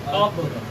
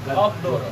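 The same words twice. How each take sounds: First: The word ends on a strong, stopped consonant cluster. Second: The same.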